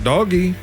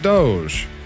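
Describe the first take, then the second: First: It is said with two syllables, like 'doggy'. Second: It is said with a long o, rhyming with 'vogue'. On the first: A joking alternative. "I could pronounce it doggy" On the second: Others say it this way. "I know they pronounce it Doge"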